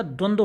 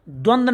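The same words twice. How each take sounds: First: द्वंद्व with a rounded final "dwo"; correct full ending. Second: द्वंद्व ended on d, as "dwand"; wrong clipped ending. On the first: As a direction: sound the last cluster of द्वंद्व. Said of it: "होता है". (द्वंद्व का आख़िरी व बोलकर) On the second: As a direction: drop the final v from द्वंद्व. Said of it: "नहीं होता". (द्वंद्व को द्वंद जैसा) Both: Shown as a demonstration.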